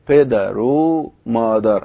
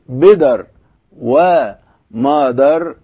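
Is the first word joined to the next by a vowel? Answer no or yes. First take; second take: yes; no. First: An o vowel joins the first word to the second. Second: The first word ends in r before a separate wa. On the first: The speaker calls it right. "الواو بتتحول إلى ما يشبه الضمة" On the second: The speaker calls it wrong. "ما بقولش بدر ومادر"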